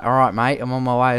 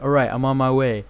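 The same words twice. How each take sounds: First: Casual Australian soldier's radio reply; Australian accent. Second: Lightly imitated American soldier voice; American accent. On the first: Retold or imitated. Gamer shows what his soldier should say, in an Australian accent. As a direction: say it in broad everyday Australian. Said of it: "why isn't he speaking Australian". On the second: Gamer mimics his soldier's radio reply, in an American accent. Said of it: "He had an American accent".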